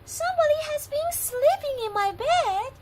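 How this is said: It is squeaked in a little voice.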